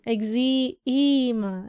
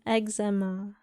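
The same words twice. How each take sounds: First: The first vowel is a long 'ee' sound. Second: The first vowel is a short 'e' sound. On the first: "you pronounce one single E as E" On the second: "instead of"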